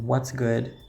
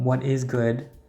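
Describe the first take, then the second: First: The first two words merge into one syllable. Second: Each word is said separately and fully. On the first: "then what's good" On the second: "comes from what is good"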